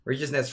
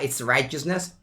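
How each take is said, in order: First: The first syllable does not sound like 'right'. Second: The first syllable sounds like 'right'. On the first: The speaker calls it wrong. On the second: The speaker calls it right.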